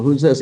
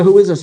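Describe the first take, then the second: First: Said in the usual way. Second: Louder, firmer "Who is this", demanding an answer; insistent repeated question. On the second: Retold or imitated. Asking the mystery caller a second time, insistent. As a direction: press "Who is this" harder and louder. Asks again after evasive answer.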